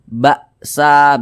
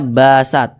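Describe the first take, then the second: First: The word ends with a clear final vowel. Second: The word ends without a final vowel. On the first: The speaker calls it right. "tapi ada a-nya di ujungnya tuh" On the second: The speaker calls it wrong. "Jangan dibaca basat"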